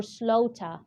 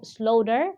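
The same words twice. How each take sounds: First: "slaughter" ending in "ah", no r; British pronunciation. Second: First "slaughter" with a sounded final r; American pronunciation. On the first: English teacher contrasting two versions for learners, "slaughter" British-style without final r. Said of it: "this is a British pronunciation". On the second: English teacher contrasting two versions for learners, "slaughter" American-style with final r. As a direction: say "slaughter" with a d-like t and an r ending. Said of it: "it will be an American pronunciation". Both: Shown as a demonstration.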